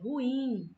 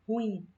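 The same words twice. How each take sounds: First: It is said slowly with two separate syllables. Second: It is said quickly as one syllable.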